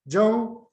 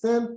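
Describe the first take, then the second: First: The surname is said in its Korean form. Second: The surname is said in its Russian form. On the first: "Korean is" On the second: "the Russian pronunciation of his surname"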